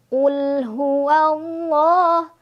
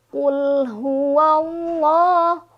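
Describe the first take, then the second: Both takes have the same delivery.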